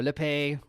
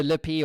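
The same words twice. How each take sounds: First: Lippe said lip-AY; Lippe ending in ay. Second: Lippy said LIP-ee; Lippy ending in ee. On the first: Host offers guest another option, Lippe with an ay ending. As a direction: end Lippe on an ay sound. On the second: Host checks guest's surname, offering Lippy with an ee ending. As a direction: end Lippy on a clear ee sound. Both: Shown as a demonstration. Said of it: "I think I'm saying that right".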